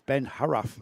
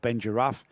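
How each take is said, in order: First: The surname begins with an H sound. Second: The surname begins with an English J sound. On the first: The speaker calls it right. "It's the J sounded as an H, like in Spanish" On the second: The speaker calls it wrong. "we were saying Ben Giraffe"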